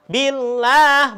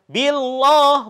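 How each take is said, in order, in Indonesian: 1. Bunyi L-nya tipis dan ringan. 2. Bunyi L-nya tebal dan berat. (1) "maka dibacanya tipis saja" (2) "bukan billah, bukan. Itu kurang tepat"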